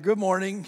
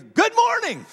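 First: Said in the usual way. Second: High, booming cheerful greeting; really loud greeting. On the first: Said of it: "that was really loud for a Monday morning". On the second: Retold or imitated. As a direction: belt it out like an overeager store worker. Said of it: "that was really loud".

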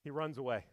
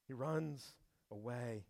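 First: Said in the usual way. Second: Softer, slow, letting it sink; hushed repeat. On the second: Shown as a demonstration. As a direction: drop the voice and slow down. Repeated line, second hushed.

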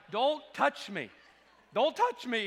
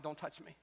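First: Louder and higher, slow pleading repeat; hammed-up overfull panic; stuck in traffic, loudly begging not to be touched; mock alarm. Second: Quiet, overfull plea not to be touched; quietly begging his wife not to touch him; stuffed groan. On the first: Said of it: "I'm like". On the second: Retold or imitated. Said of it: "I said".

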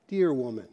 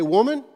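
First: Dear woman said low and soft; gentle Dear woman; softened Dear woman. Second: Blunt Woman; plain Woman. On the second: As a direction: say Woman straight, no softening. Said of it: "Jesus doesn't say". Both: Shown as a demonstration.

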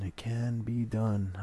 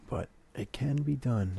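First: "It can be done" drawn out slowly, each word weighted; slow emphatic repeat. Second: Said in the usual way. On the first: Shown as a demonstration.

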